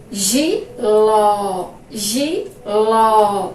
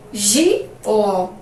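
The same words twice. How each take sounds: First: Giló with the last syllable ló drawn out and stressed. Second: Said in the usual way. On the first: Shown as a demonstration. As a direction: lean on ló in Giló, open ó. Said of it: "sílaba mais forte". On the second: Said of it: "Agora, ó".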